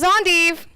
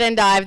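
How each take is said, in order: First: It is said a different, non-Oklahoma way. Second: It is said the way Oklahomans say it. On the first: "Esther and Marie would tell you this is endive" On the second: "Those of us in Okie land call it endive"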